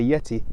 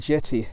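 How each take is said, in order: First: The word begins with a Y sound. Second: The word begins with a J sound. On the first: The speaker calls it wrong. "I never normally say yeti" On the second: The speaker calls it right. "I said it right"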